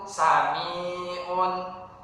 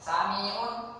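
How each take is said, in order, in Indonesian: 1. Vokal tengah dibaca panjang, dipanjangkan. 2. Vokal tengah dibaca pendek, tidak dipanjangkan. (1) "yang betul itu" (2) "banyak kita ketemui"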